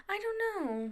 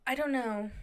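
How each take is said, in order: First: High, soft, sheepish don't know. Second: Said in the usual way. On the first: Real, not acted. Vlogger owning up to movie love, high and soft.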